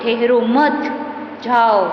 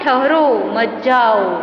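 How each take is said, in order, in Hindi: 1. विराम दूसरे शब्द के ठीक बाद आता है। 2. विराम पहले शब्द के ठीक बाद आता है। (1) "इस उसी ही वाक्य में ठहरो मत जाओ, उभा रहो नहीं, तमे जाओ" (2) "पहले वाक्य में ठहरो मत जाओ, उभा रहो जाओ नहीं"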